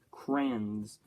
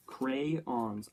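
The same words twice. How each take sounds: First: "Crayons" squashed into one syllable, "crans". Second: "crayons" as CRAY-ons, both syllables full; two-syllable crayons. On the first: Vlogger unsure of a word, "Crayons" said as "crans". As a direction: say "Crayons" to rhyme with "hands". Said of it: "never known how to pronounce it". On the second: Vlogger testing how to pronounce a word, "crayons" as CRAY-ons. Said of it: "How do you pronounce that word?". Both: Shown as a demonstration.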